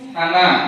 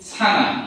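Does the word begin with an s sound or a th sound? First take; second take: th; s. First: It begins with a th sound. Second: It begins with a plain s sound. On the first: The speaker calls it right. "যেটা যে জিহ্বার আগা থেকে উচ্চারণ করতে হবে।" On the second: The speaker calls it wrong. "এই ভুলটা আমাদের অনেকের হয়ে থাকে। আমরা বলি সানা"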